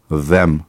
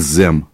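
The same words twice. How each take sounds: First: The first sound has the tongue between the teeth. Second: The first sound is made without the tongue between the teeth. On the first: The speaker calls it right. "Язык между зубов" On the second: The speaker calls it wrong. "не them"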